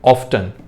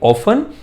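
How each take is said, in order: First: The t sound is heard. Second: The t sound is silent.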